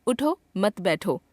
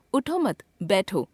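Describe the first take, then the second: First: "उठो", pause, then "मत बैठो" together; pause after उठो. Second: "उठो मत" together, pause, then "बैठो"; group मत with उठो, break, drop on बैठो; pause after मत. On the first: Teacher shows it means get up, pausing after उठो. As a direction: break after उठो and group मत with बैठो, slowly. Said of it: "उठने के लिए कहा जा रहा है". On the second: Teacher shows it means sit down, pausing after मत. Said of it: "बैठने के लिए कहा जा रहा है". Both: Shown as a demonstration.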